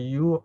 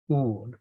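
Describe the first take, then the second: First: The vowel starts with a 'y' glide. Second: The vowel is a plain 'oo' sound. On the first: The speaker calls it wrong. "we don't say you" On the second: The speaker calls it right. "we pronounce a bit like in Spanish, you know, in Latin"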